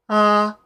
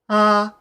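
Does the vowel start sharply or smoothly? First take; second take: smoothly; smoothly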